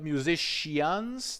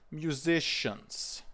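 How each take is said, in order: First: An extra 'ia' sound is added near the end. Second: No extra 'ia' sound is added near the end. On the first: The speaker calls it wrong. "it's not musicians. There is no additional ia" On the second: The speaker calls it right. "Like that"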